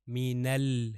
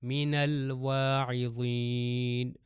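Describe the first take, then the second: First: من ال cut off, holding on the lam; stop on the lam. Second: من الواعظین fully chanted, slowly, lam with sukoon; Quran recitation. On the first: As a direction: halt on the lam of من ال. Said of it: "لام پہ آ کے رک رہا ہوں". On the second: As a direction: recite من الواعظین in full, slow, lam resting. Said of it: "لام پہ آ کے رک رہا ہوں کیونکہ سکون ہے". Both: Shown as a demonstration.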